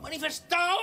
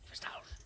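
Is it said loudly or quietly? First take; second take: loudly; quietly. First: It is shouted loudly. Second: It is said quietly.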